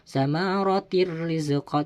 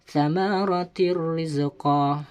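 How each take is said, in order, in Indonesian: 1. Bunyi n menyatu menjadi r ganda. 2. Bunyi n menyatu menjadi r ganda.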